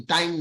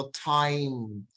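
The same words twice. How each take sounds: First: টাইম with a flat, unaspirated Bengali t; wrong plain t. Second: টাইম with a breathy, aspirated t; টাইম said slowly with a puff of air on the t. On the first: Teacher shows the wrong t to avoid. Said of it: "টাইম না". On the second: Teacher models aspirated t for the class. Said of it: "আমরা টকে আমরা ছ বলবো". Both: Shown as a demonstration.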